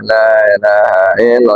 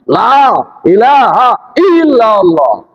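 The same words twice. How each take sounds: First: It is said weakly, without energy. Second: It is said forcefully, with high energy.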